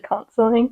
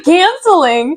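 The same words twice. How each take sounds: First: "canceling" with a broad "ah", as CAHN-suh-ling; British-sounding mispronunciation. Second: "canceling" with the short "a" of "cat"; American pronunciation. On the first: Retold or imitated. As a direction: mimic a British "canceling", first vowel "ah". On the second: Shown as a demonstration. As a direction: insist on an American "canceling", drawn out. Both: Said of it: "sounded really British".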